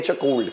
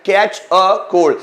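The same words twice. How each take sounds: First: Said in the usual way. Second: Teacher stretches out Catch a cold so students repeat it; slow, clear demo. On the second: Shown as a demonstration. Teacher drilling students on a phrase, very slow and clear. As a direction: Catch a cold said very slowly, each word spaced apart. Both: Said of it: "क्या verb है?".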